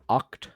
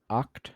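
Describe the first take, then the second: First: The vowel sounds like the o in hot. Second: The vowel sounds like the o in hot.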